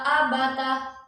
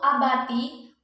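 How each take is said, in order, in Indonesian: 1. Kata ini berakhir dengan vokal 'a'. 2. Kata ini berakhir dengan vokal 'i'. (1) "bila dibaca fathah" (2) "Dibaca kasroh"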